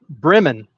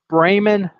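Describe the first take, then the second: First: The name is pronounced in an Americanized way. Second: The name is pronounced in the German way. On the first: It names the town in the United States. "We have one of those here. It's called Bremen" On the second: It names the city in Germany. "there's Bremen, Germany"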